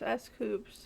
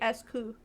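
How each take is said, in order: First: The name ends with a clearly sounded s. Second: The name ends without any s sound. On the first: This is how the name is actually said. "not pronounced like coup" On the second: This follows the French origin of the word. "en français, coup d'état... so it should be S coup"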